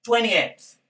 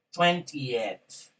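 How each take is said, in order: First: "Twentieth" as "tweny-eth"; twentieth without middle T. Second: "twentieth" carefully as "twen-ti-eth"; twentieth with T sounded. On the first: Teacher offering students another pronunciation, "Twentieth" with silent middle T. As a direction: drop the T after the N in "Twentieth". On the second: Teacher building the ordinal for students, "twentieth" with both Ts. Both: Shown as a demonstration. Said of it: "puedes pronunciar".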